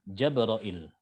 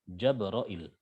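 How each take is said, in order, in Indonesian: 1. Diawali dengan 'ja' dan diakhiri dengan '-ra-il'. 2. Diawali dengan 'ja' dan diakhiri dengan '-ra-il'.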